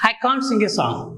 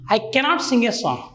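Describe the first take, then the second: First: The negative is said as contracted can't. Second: The negative is said as full cannot.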